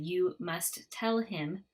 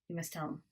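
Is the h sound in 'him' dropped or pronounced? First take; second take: pronounced; dropped. First: Each word is separate, with the h sounded. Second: The words flow together, with the h dropped. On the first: "instead of" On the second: "this is how it sounds with connected speech"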